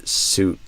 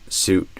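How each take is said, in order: Both takes have the same delivery.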